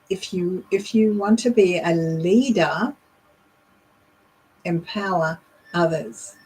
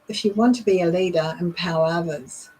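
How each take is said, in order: First: Leader and empower are stressed, with a pause. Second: It is said flat, with no stressed words.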